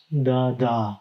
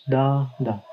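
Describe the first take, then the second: First: "da, da" with the second da stressed; unstressed da, then stressed "da"; iamb stress pattern. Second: "da, da" with the first da stressed; stressed da, then lighter "da"; trochee stress pattern. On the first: Teacher demonstrates an iamb, second "da" stressed. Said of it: "followed by a stressed syllable". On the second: Teacher demonstrates a trochee, first "da" stressed. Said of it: "followed by an unstressed syllable". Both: Shown as a demonstration.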